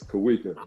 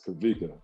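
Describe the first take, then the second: First: The middle consonant is a W sound. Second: The middle consonant is a V sound. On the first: This is the name used by people who met him before 2003. "If you knew me prior to oh three, it's Kawika" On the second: This is the name used by people who met him after 2003. "if you knew me post oh three, it's Kavika"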